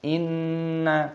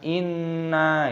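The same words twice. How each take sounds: First: The syllable after the nasal hum is short. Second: The syllable after the nasal hum is drawn out. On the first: The speaker calls it right. "tapi nanya pendek" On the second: The speaker calls it wrong. "Jangan kita juga ikutan kita panjangkan"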